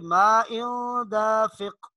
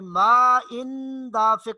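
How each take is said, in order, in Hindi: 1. n दबाकर नाक से बोला जाता है। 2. n पूरा और साफ़ बोला जाता है। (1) "बल्कि मा इन दाफिक, नाक में आवाज लेके जानी है" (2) "मा इन दाफिक नहीं, इन बिल्कुल वाजे तौर पर नून नहीं पढ़ेंगे"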